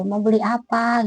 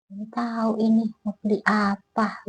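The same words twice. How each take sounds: First: Said in the usual way. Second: Eerie vendor. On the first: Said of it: "gitu kan". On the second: Retold or imitated. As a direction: mimic the spaced-out seller, quiet and dragging. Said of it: "tuh bengong aja".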